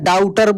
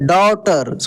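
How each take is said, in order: First: The first vowel sounds like 'ow' in cow. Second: The first vowel sounds like 'aw' in law. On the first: The speaker calls it wrong. "बहुत सारे लोग कैसे बोलते हैं? डाउटर बोलते हैं। तो इस तरीके से नहीं बोलना है, गलत हो जाएगा" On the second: The speaker calls it right. "इसको डॉटर बोलेंगे"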